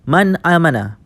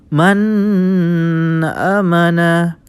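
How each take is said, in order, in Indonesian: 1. Dibaca dengan lancar tanpa jeda. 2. Ada jeda setelah bunyi n. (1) "dibaca dengan tanpa jeda" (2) "terdapat jeda pada nun sukun"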